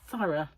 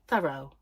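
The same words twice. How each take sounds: First: It is said with a British pronunciation. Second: It is said with an American pronunciation. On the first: The speaker calls it right. "It's thorough" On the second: The speaker calls it wrong. "in America they say thorough"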